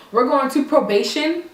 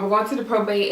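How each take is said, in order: First: Imitating his puzzled question, rising on "probation"; mock-confused query ending up on "probation". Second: Said in the usual way. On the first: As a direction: lift "probation" as if you misheard it. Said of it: "He's like".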